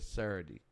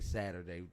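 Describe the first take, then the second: First: The word is said in a Baltimore accent. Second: The word is said in a standard accent. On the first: "The way I would really say is Saturday" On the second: "I have to make a conscious you know, decision to say Saturday"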